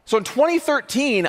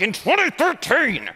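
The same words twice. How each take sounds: First: Said in the usual way. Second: Slow, emphatic big reveal; dramatic presenter flourish. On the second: Shown as a demonstration. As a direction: announce the year with a flourish. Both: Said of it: "I usually have the pointer, and I'm like".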